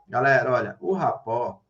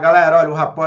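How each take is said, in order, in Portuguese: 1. É falada devagar, com pouca energia. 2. É falada rápido, com muita energia.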